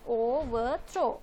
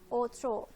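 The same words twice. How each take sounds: First: The word is said with three full syllables. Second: The word is squeezed into two syllables. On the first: "three syllables" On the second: "the V is missing, so it is pronounced as more like"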